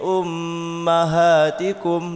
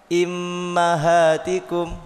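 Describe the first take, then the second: First: The word begins with a u vowel. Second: The word begins with an i vowel. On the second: "membaca kasroh hamzah"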